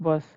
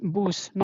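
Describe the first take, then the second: First: The vowel sounds like the uh in cut. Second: The vowel sounds like the oo in boot. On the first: This is the English reading of the word. "not bus" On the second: This is the German reading of the word. "So you will read that as boost"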